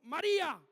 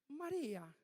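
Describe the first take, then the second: First: The name is said strongly and forcefully. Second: The name is said softly and weakly.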